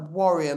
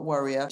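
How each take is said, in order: First: Careful, louder "warrior", not worrier; clearly enunciated "warrior"; warrior, clearly pronounced. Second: "warrior" with the first vowel of "worry"; "warrior" turned into worrier; mispronounced as worrier. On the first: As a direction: say "warrior" with an open first vowel, as in fighter. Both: Shown as a demonstration. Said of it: "not warrior".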